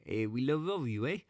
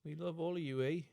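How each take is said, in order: First: Higher, hammed-up Canadian "eh, we love all of you, eh"; mock Canadian accent. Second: Higher mock Canadian "we love all of you, eh"; a hammed-up Canadian farewell; mock Canadian accent. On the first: Host echoes the greeting in a bad Canadian accent. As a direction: overdo the Canadian "eh". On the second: Cohost greets Canadian listeners in a mock Canadian accent. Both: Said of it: "This is probably the worst".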